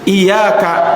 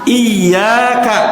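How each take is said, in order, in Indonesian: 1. Bunyi y itu tunggal dan pendek. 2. Bunyi y itu ganda dan ditahan panjang. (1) "Kalau ada yang membaca tanpa tasydid" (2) "di situ huruf ya-nya ditasydid itu"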